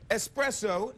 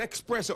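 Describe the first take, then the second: First: Espresso as es-PRESS-oh, no k; right pronunciation. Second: Espresso as ex-PRESS-oh, with a k; wrong pronunciation. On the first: Host admitting his error on air: espresso with clean s. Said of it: "it's espresso". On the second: Host mocking his old error: espresso as ex-PRESS-oh. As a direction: say espresso with a sneaky x sound. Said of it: "not espresso". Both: Shown as a demonstration.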